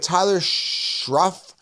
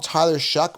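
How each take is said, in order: First: The surname ends with an f sound. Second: The surname ends with a k sound. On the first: The speaker calls it right. "how it should be pronounced" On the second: The speaker calls it wrong. "They call him Tyler Shuck"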